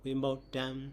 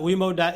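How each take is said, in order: First: Vimuktam ending in a nasal m. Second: Vimukta ending on an open a; no nasal ending. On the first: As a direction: close Vimuktam on the nasal sound. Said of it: "with the nasal sound". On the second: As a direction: say Vimukta with no final m. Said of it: "so without Nigahita". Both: Shown as a demonstration.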